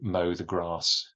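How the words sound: The a in grass is long. "that's a long a sound for a Southerner"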